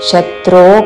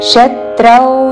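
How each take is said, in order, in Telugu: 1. ఈ పదం సాధారణ 'o' అచ్చుతో ముగుస్తుంది. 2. ఈ పదం 'au' ద్విస్వరంతో ముగుస్తుంది. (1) "శత్రో కాదు"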